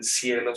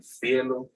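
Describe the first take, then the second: First: Said in the usual way. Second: "cielo" with a lisped th, like thielo; Andalusian ceceo. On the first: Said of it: "no dicen cielo". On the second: Shown as a demonstration. Teacher shows students the Andalusian "cielo". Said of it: "sino dicen cielo".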